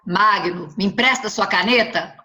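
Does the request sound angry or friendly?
angry. The request sounds angry and irritated.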